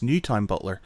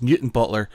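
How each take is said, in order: First: The second syllable is said fully as 'town'. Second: The second syllable is reduced to a short 'ton'. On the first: The name is read the way it is spelt. The speaker calls it wrong. "No, it's spelt Newtown Butler" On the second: The name is said the way local people say it. The speaker calls it right. "we don't pronounce the whole thing"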